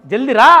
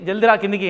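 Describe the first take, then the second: First: Loud angry "జల్దీ రా"; "జల్దీ రా" yelled much louder; mum shouting. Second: Said in the usual way. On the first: Retold or imitated. Furious mother yelling at her son over the phone, "జల్దీ రా" loud. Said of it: "ఫోన్లోనే వినిపిస్తుంది". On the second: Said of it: "phone చేసి".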